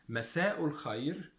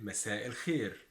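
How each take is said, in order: First: مساء الخير as "masa'u l-khayr", rising; Standard Arabic pronunciation. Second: مساء الخير as "masa' il-kheer", falling; Egyptian pronunciation. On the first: Teacher sets up good evening contrast, Standard Arabic pronunciation. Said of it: "the pronunciation is quite different". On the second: Teacher gives good evening in dialect, Egyptian pronunciation. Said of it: "we say". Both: Shown as a demonstration.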